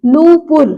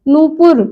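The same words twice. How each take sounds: First: नूपुर with nū held longer; long first vowel. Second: नूपुर with a quick nu; short first vowel. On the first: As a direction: stretch the first syllable of नूपुर. (नूपुर में लंबा ऊ) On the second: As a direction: say नूपुर as nu-pur, unstretched. (नूपुर में छोटा उ) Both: Shown as a demonstration. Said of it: "बड़े ऊ की मात्रा".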